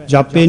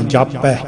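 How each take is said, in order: First: ਜਾਪੇ ending in a closed "pay" vowel; e-ending misreading. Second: ਜਾਪੈ ending in an open "pae" vowel; double-stroke vowel. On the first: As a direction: end ਜਾਪੇ on a narrow e. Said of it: "ਜਾਪੇ ਨਹੀਂ ਪੜ੍ਹਨਾ". (ਜਾਪੇ, ਇੱਕ ਲਾਂ ਨਾਲ) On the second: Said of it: "ਪੱਪੇ ਨੂੰ ਦਲਾਵਾਂ ਦੇ ਕੇ". (ਜਾਪੈ, ਦੁਲਾਵਾਂ ਨਾਲ) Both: Shown as a demonstration.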